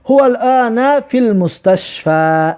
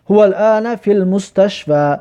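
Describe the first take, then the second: First: Slow, raised, word by word; slow model reading. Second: Said in the usual way. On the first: Shown as a demonstration. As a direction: spell it out slowly for the class. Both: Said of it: "ببینید".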